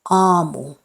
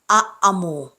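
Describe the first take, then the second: First: The first vowel is long. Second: The first vowel is short. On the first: The speaker calls it right. "you have to prolong its pronunciation" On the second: The speaker calls it wrong. "it's not aamu"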